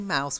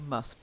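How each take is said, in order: First: The syllable has a full 'ow' vowel. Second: The syllable has a reduced 'uh' vowel. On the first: The speaker calls it wrong. "we don't say mouse" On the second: The speaker calls it right. "we tend to say mus"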